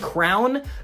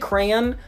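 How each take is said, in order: First: It collapses into one syllable sounding like crown. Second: Two syllables with a light, subtle Y sound. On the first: The speaker calls it wrong. "they're adding an O and a W that does not exist in the word" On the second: The speaker calls it right. "I'm still pronouncing the Y sound, but it's subtle"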